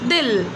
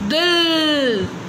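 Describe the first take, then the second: First: The vowel is short and quick. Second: The vowel is stretched out long. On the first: The speaker calls it right. "तो बहुत छोटी सी sound आई" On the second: The speaker calls it wrong. "मैं इसको ऐसे नहीं बोलूँगी"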